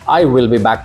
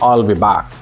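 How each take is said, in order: First: Each word is said separately and fully. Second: The words are blended into a contracted form.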